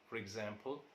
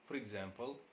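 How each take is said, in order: The two takes are said the same way.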